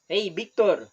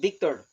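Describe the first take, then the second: First: "Victor" said as "Biktor"; hard B to open Victor, no V. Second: "Victor" with a buzzed V, teeth on lip; true V sound. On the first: Teacher quoting a Costa Rican greeting, Victor with a B. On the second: Teacher contrasting the unused form, Victor with a real V. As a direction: open Victor on V, not B. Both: Shown as a demonstration. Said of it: "instead Victor".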